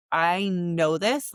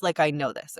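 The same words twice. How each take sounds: First: Slow, drawn-out "I know this" with a rising "this"; emphatic I know this. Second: Said in the usual way. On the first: Real, not acted. To listeners, insisting she knows her calling, slow and emphatic. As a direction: lean hard on "I know this", stretching it slowly.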